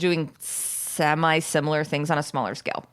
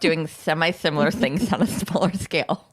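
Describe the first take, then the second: First: The s sounds are spoken normally. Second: The s sounds are spoken with a lisp.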